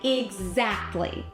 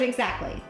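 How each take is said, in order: First: The word is drawn out slowly with weight. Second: The word is said quickly without extra weight. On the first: The speaker calls it right. "I say exactly" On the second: The speaker calls it wrong. "instead of exactly"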